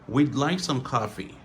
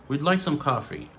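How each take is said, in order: Both takes have the same delivery.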